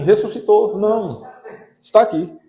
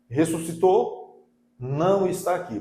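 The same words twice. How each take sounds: First: The pause comes after 'não'. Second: The pause comes before 'não'.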